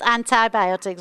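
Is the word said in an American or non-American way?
American. It is said the American way.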